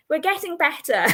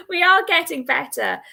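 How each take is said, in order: First: "We're getting better" said through a real laugh. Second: "are" in "We are getting better" lifted higher and louder; stress on are. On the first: Host laughs at her own tarot deck, laughing. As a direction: giggle through the words. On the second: Host insists to viewers she's improving, leaning on "are". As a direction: lean hard on "are". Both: Real, not acted.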